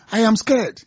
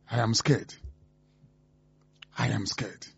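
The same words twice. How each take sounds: First: Higher-pitched, insistent alarm; alarmed refrain. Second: Low, quiet and grave; hushed dread. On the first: Radio host reacting to threats against voters, rising alarm. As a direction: lift the pitch as the worry mounts. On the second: Radio host confessing fear about the country, hushed dread. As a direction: say it low, under your breath. Grave opening refrain of worry. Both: Real, not acted.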